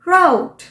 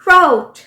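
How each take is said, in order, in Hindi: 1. यह 'out' के साथ तुकबंदी करता है। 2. यह 'out' के साथ तुकबंदी करता है।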